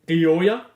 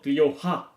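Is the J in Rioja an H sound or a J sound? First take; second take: J sound; H sound. First: The J is said as an English J. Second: The J is said as an H. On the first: The speaker calls it wrong. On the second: The speaker calls it right. "The J is a H"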